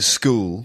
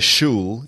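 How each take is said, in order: First: The word begins with an sk sound. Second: The word begins with an sh sound. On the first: The speaker calls it right. "you say a school" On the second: The speaker calls it wrong. "you don't say a shul"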